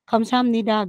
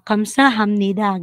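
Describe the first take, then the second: First: Part of the ending is dropped and run together. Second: Every syllable is pronounced fully and distinctly. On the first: A native speaker says it. "gano'n lang, nawala na yung hamnida" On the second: A non-native speaker says it. "'Pag sinasabi kasi natin na, ah, kamsahamnida, gano'n talaga"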